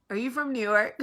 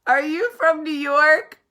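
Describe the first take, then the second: First: Lightly voiced Southern shopper, a little higher; imitating sweet stranger. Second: High, loud, drawn-out question; hammed-up repeat. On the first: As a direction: politely ask as the curious stranger. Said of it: "She goes". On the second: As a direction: belt out the stranger's question, stretching each word. Exaggerated repeat of stranger's question.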